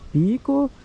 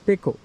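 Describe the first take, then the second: First: The word is said the way dictionaries give it. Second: The word is said the way tea traders say it. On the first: This is the form some reference books give. "some sources say it's Peko, including some very well-known dictionaries" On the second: This is the form people in the trade use. "most of the people in the tea industry, they pronounce it as Peko"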